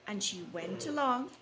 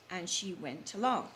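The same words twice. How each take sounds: The two takes are said the same way.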